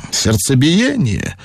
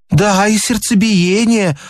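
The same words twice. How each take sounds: First: Slow, drawn-out doctor's query; idle question. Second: High-pitched, eager lady's yes; fibbing lady. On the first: Doctor asks the lady for want of anything to do, idly. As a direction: ask it slowly, for want of anything better. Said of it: "спросил от нечего делать доктор". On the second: Lady lies to the doctor about palpitations, eagerly complaining. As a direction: play the lady piling on an invented symptom. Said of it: "соврала дамочка". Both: A narrator's reading.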